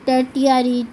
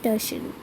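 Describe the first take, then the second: First: The middle consonant is a 't' sound. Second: The middle consonant is a 'sh' sound. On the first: The speaker calls it wrong. "बहुत ज़्यादा बच्चे टर्टियरी टर्ट कुछ भी बोलते रहते हैं" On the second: The speaker calls it right. "It's actually pronounced as टर्शरी"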